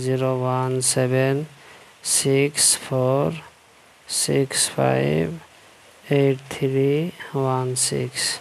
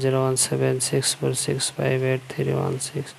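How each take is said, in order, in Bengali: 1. সংখ্যাটি ধীরে ও স্পষ্টভাবে পড়া হয়েছে। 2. সংখ্যাটি স্বাভাবিক গতিতে পড়া হয়েছে।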